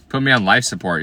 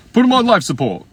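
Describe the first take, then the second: First: Said in the usual way. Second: Much higher, louder comic squeal; hammed-up squeal; squealing joke. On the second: Real, not acted. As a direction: shriek it like a punchline.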